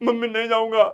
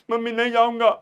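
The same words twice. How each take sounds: No difference in how they are said.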